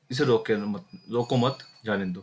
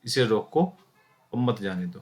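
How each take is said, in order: First: "रोको मत" run together as one phrase, then "जाने दो"; pause after मत. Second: "इसे रोको", held with a rise, pause, then "मत जाने दो"; pause after रोको. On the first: Teacher showing class the second meaning, रोको मत kept together. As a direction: join मत to रोको, meaning don't stop it. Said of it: "अर्थात गाड़ी को रोकना नहीं है". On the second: Teacher showing class the comma's meaning, pause after रोको. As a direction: break clearly after रोको, then let मत जाने दो fall. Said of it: "इस वाक्य को दो अर्थ में लिखे जा सकते हैं". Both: Shown as a demonstration.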